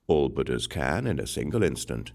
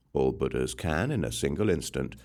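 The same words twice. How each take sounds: The two takes are said the same way.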